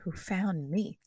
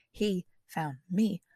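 First: Said in the usual way. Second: HE and ME stressed, word by word; emphatic reiteration. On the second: Shown as a demonstration. Comic reiterating who found whom, pointedly emphatic. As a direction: slowly spell out "He found me" with weight on each word. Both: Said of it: "Let me just reiterate that".

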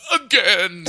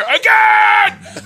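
First: Put-on whimpering toddler sob, slightly raised; mock sobbing. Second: Put-on high, loud toddler yell; thrilled toddler demand. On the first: Fallen toddler in uncle's arms, hammed-up tearful plea. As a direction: choke it out like a crying child. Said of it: "And he's sobbing in my arms". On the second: Toddler thrown in the air, demanding it at a high shout. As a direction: holler it like an insatiable kid. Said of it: "his hair is still flying in the air".

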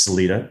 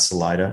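First: Salida said sa-LEE-da; a long EE in the middle of Salida; local pronunciation. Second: Salida said sa-LIE-da; non-local pronunciation. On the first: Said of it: "pronounced Salida, not Salida". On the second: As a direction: middle of Salida rhymes with "lie". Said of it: "not Salida, Salida as". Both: Shown as a demonstration.

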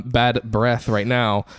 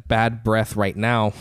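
First: "bad breath right now" dragged out very slowly, word by word; very slow playful repeat of "bad breath right now"; even slower. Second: "bad breath right now" drawn out at half speed; slow joking demo of "bad breath right now". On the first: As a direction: linger on "bad" and drag the whole phrase. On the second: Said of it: "if I have bad breath". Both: Shown as a demonstration.

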